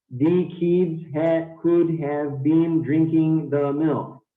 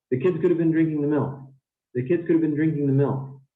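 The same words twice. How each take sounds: First: Slow, every word stressed in "could have been drinking the milk"; too much stress. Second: Natural quick flow, "could have been" reduced to a weak blur; quick, function words unstressed. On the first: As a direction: unnatural word-by-word delivery, full weight even on "the" and "have". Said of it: "too much stress". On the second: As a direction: stress "kids", "drinking", "milk", squash "could have been" together. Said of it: "I'm speaking pretty quickly here". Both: Shown as a demonstration.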